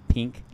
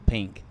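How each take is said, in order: Both takes have the same delivery.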